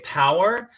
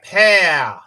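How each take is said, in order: First: It is said in the speaker's usual accent. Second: It is said in a thick South Australian accent.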